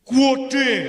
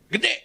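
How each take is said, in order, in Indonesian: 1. Diucapkan panjang, dengan logat Semarang. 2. Diucapkan pendek dan datar, dengan logat Jakarta. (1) "kalau orang Semarang bilangnya apa?" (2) "Gede nih anak Priok itu biasanya"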